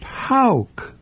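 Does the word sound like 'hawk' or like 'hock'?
hawk. It is said with the local Southern vowel. This is how locals name the bird. The speaker calls it right. "Down here, the bird would be pronounced hawk"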